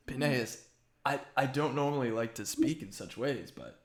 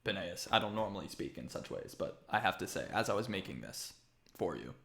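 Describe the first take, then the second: First: Lightly put-on accent for Cicero; mistaken character accent. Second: Matter-of-fact, softer character voice; Cicero. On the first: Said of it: "I don't know why I'm doing this accent". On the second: Acted. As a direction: lower and quieter, plainly formal craftsman. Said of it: "He's very matter".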